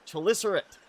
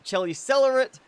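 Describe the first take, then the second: First: The word is said without an extra 'le' syllable. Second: The word is said with an extra 'le' syllable. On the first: The speaker calls it right. "the pronunciation for this is correctly said Chelicerate" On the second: The speaker calls it wrong. "not Chelicelerate, like I've tended to say"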